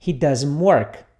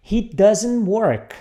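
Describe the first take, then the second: First: He doesn't work said again, a bit slowly; model for repeating. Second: He doesn't work, said very slowly word by word; slow model sentence. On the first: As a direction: model the sentence at a steady pace. (frase modelo para o aluno repetir) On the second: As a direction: spell it out slowly for the class to repeat. (bem devagar para o aluno repetir) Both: Shown as a demonstration.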